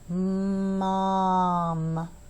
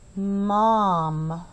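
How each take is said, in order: First: It is said slowly, with stretched sounds. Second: It is said quickly, with short sounds.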